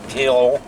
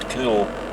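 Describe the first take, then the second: First: The name is said with two separate vowel sounds. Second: The name is said with one long oo vowel. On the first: This is how people unfamiliar with the area say it. The speaker calls it wrong. "Some people that don't know the area pronounce it as Keol" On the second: This is how the name is actually said locally. The speaker calls it right. "but it is actually pronounced Coole"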